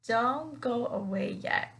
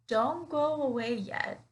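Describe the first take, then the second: Both takes have the same delivery.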